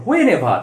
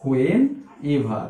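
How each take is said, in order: First: Whenever run together without a gap; joined as one. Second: Low rising when, pause, then ever; two separate parts. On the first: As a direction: say whenever as one falling word. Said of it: "when এর সঙ্গে attach থাকবে". (whenever না থেমে একসাথে বলা) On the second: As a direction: split it into when and ever with a clear gap. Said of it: "এভারটা কিন্তু when এর সঙ্গে অ্যাটাচ থাকবে". (when আর ever থেমে আলাদা করে বলা) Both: Shown as a demonstration.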